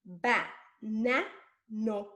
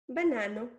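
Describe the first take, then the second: First: BA... NA... NO, one slow beat each; separated syllables. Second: Said in the usual way. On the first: Shown as a demonstration. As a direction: pause after each of BA, NA, NO. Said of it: "if I change the na for no". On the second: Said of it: "which is a Spanish word".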